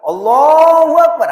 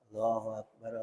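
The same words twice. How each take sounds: First: It is said in a loud, full voice. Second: It is said in a soft, quiet voice. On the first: "gitulah yang keras" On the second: "Maksudnya dengan suara pelan. Pertama"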